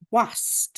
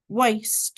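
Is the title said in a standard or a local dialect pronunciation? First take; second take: local dialect; standard. First: The title is said in a local dialect pronunciation. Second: The title is said in standard pronunciation. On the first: "I prefer to pronounce it Wast, as I think the characters in the book would pronounce it" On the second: "one called Waste"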